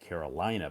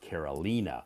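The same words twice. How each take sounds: First: It is said like the American state name. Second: It is said unlike the American state name. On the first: The speaker calls it wrong. "I always want to pronounce it Carolina because I'm so accustomed" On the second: The speaker calls it right. "But her name is pronounced Carolina"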